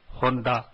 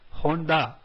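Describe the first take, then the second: First: The D is a soft, dental D. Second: The D is a hard English-style D. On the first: The speaker calls it right. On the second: The speaker calls it wrong.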